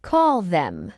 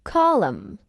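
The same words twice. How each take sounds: First: "call them" as two full words; full form. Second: "Call 'em" linked like column; reduced form. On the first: Teacher explains what call 'em means, full form. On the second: Teacher shows learners the short form, reduced. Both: Shown as a demonstration. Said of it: "It means call them".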